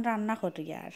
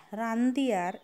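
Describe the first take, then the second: First: রান্না করি আর, শুদ্ধ বইয়ের ভাষায়; রান্না শব্দ শুদ্ধ ভাষায় বলা. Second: রান্দি আর, সিলেটি আঞ্চলিক ভাষায়; রান্না নয়, সিলেটি রান্দি আর; সিলেটি উচ্চারণ. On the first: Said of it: "রান্না শব্দটা কিন্তু বইয়ের ভাষা". (শুদ্ধ বইয়ের উচ্চারণে রান্না করি আর) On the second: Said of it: "আমরা সিলেটি আঞ্চলিক ভাষা". (সিলেটি আঞ্চলিক উচ্চারণে রান্দি আর) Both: Shown as a demonstration.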